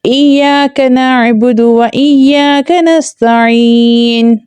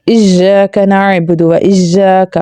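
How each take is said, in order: First: Higher, slow chant with y in ایاک, as iyyaka; correct recitation. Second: ایاک said with j, as ijjaka; common mispronunciation. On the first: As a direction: stretch the doubled y of ایاک, no j. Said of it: "کیا بولنا ہے؟". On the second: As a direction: recite slowly, turning the y of ایاک into j. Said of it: "وہاں پر لوگ کیا پڑھ رہے ہوتے ہیں؟". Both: Shown as a demonstration.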